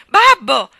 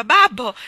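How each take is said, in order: First: Much higher, piercing shriek; desperate scream. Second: Loud, high cry for father; scream. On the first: Daughter shrieking louder to stop her father. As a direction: scream with all your strength. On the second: Daughter screaming at her father beating a man. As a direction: scream to stop him. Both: A narrator's reading. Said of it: "una voce di donna che urlava".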